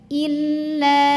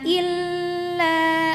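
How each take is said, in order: First: The l sound is pressed briefly without holding. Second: The l sound is held for a while. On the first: The speaker calls it right. "tekan saja" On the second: The speaker calls it wrong. "jangan illa, nggak usah nahan ya"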